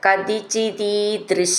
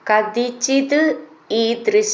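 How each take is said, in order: First: The two words are run together as one. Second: The two words are said separately.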